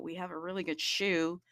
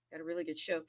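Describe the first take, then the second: First: "shoe" in place of show, with an oo vowel. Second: Said in the usual way. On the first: Shown as a demonstration. Host promoting the program, show playfully pronounced "shoe". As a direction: say "shoe" where show is meant. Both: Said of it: "I don't wanna sound weird".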